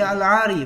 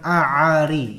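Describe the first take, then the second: First: The l is clearly pronounced before the vowel. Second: The l is left out before the vowel. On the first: The speaker calls it right. "baca al ari" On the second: The speaker calls it wrong. "bukan a ari, ya, salah"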